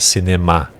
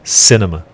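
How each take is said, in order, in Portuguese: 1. A ênfase cai em uma sílaba posterior. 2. A ênfase está na primeira sílaba. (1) "em vez do português que é cinema" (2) "a ênfase está na primeira sílaba"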